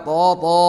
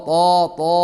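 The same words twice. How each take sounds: No difference in how they are said.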